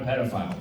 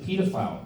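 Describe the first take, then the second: First: It is said with an American pronunciation. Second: It is said with a British pronunciation.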